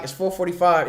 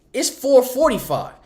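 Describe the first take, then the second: First: Said in the usual way. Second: FOUR FORTY-FIVE slow and higher; emphatic time. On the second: Real, not acted. Stressing how long check-in took.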